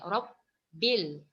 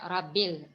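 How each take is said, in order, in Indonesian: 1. Bunyi b ditahan dan dobel. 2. Bunyi b pendek dan tunggal. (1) "cara bacaan yang tepat" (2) "Jangan dibaca rabil"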